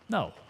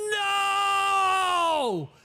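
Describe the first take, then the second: First: It is said flatly without emphasis. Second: It is said loudly with strong emphasis.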